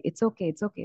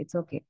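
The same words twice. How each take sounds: First: A gentle, hushed it's okay; soothing hush. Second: Softer it's okay, trailing away; almost under the breath; fading hush. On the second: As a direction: let the it's okay die down quietly. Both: Retold or imitated. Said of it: "మనం ఏమంటామంటే".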